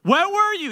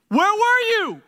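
First: High, loud scolding again; indignant repeat. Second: High, loud scolding; indignant demand. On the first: Martha pressing Jesus, loud high scolding demand. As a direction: wag the finger and demand. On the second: Martha confronting Jesus, loud high indignant demand. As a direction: hand on hip, demand an answer. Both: Pretend. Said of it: "she's like ... all in his face".

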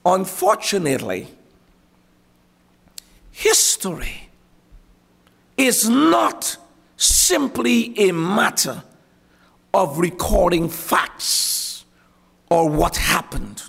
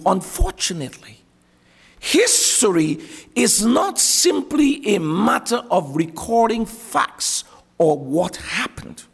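First: Said in the usual way. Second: Slow, deliberate, every word spelled out; over enunciating. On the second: Shown as a demonstration. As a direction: lean on each word slowly. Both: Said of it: "Let me say it slowly".

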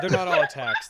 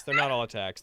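First: All said high and loud; stress on all. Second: Not said loud, lower pitch; stress on not. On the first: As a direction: lean hard on all. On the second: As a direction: lean on not, not all. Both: Shown as a demonstration. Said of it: "repeated with other stress".

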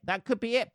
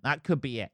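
First: Repeated higher in a playful sing-song; mock musing. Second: Said in the usual way. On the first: Shown as a demonstration. Teasing listeners by repeating the thought, higher and playful. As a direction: lift it up teasingly the second time. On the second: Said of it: "That could be it, people".

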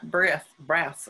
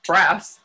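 First: Stumbling over "breath, breaths"; tongue-tied stumble. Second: "breaths" said loud and distinct; careful retry. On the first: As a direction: fumble "breath, breaths", not landing the final consonants. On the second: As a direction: punch out "breaths" as one firm, corrected word. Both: Real, not acted. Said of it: "I can't even say it".

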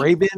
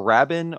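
First: Rabin said as RAY-bin; first pronunciation option. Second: Rabin said as RAB-in; second pronunciation option. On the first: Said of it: "How do you say his name?". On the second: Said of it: "It's one of those two". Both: Shown as a demonstration.

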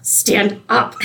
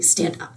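First: Voiced, a touch sharper and higher; mild urgent command. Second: Whispered, urgent hiss through a fake smile; angry hissed whisper. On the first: Teen girl to boyfriend kneeling with a ring, mildly exasperated order. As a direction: insist he get up now, mock-annoyed. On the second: Teen girl to boyfriend proposing in a restaurant, furious whispered hiss. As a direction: hush him fiercely so nobody hears. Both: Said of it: "you just see her get so angry".

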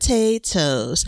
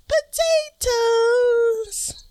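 First: Slow, stretched-out potatoes; hammed-up drawn-out announcement. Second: Very high, long-held playful potatoes; hammed-up high singsong. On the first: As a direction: draw out each syllable playfully. Last hammed-up repeat of reveal. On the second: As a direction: stretch it out high like a mock chant. Hammed-up repeat of the reveal.

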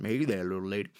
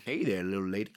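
First: A Texas cop greeting a woman; mock Texas cop; Texas accent. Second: Said in the usual way. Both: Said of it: "and my accent is like".

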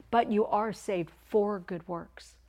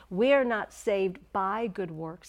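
First: "for" set apart, slow and firm; slow, emphatic "saved for good works"; stress on FOR. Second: "not saved by" stressed, slow and emphatic; slow, weighty denial on "not" and "by"; stress on the negation. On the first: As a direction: lean on "for" as the correction. Contrasts for with by. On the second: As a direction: hammer out "not saved by good works" slowly. Contrasts by with for. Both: Shown as a demonstration.

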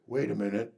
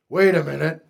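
First: Much softer and lower, "Wait" rising as if thinking aloud; quiet self-check before the full repeat; muttered to self. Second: Louder, "Wait" rising; preacher halting the congregation with a question; spoken up. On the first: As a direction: say "Wait a minute" under your breath, puzzled. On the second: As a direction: call out "Wait a minute" to stop the room. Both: Shown as a demonstration.

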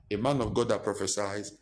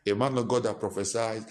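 Both takes have the same delivery.

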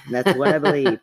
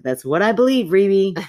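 First: Said in the usual way. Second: Louder, higher, insisting on her belief; emphatic, half-laughing insistence. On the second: Real, not acted. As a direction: press the point home to her friend. Insisting to co-host.

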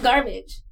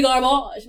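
First: Said in the usual way. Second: Garbage drawn out as gar-BAHZH; fancy pronunciation. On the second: Pretend. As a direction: put a mock-French ending on garbage. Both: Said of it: "You are not garbage. You are garbage".

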